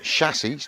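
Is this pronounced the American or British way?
British. It is said in a British way. This is how people here say it. The speaker calls it right. "But we have chassis"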